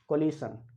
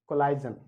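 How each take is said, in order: First: The middle sounds like 'ish' with a hissing sh. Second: The middle sounds like 'ize' with a long vowel. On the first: "कोलिशन या कोलाइजन गलत होता है" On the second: "कोलिशन या कोलाइजन गलत होता है"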